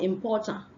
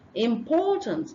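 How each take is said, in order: First: The final consonant sound is left off. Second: The final consonant sound is clearly pronounced. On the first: The speaker calls it wrong. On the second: The speaker calls it right.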